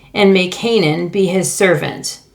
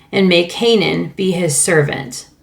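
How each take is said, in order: Both takes have the same delivery.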